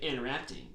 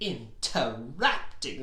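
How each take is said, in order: First: The word is said flatly, without feeling. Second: The word is said with upset, exaggerated emphasis. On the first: The speaker calls it wrong. "You can't just say interrupting" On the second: The speaker calls it right. "like you really mean it"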